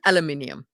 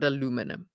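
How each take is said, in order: First: It is said the speaker's usual, non-American way. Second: It is said the American way.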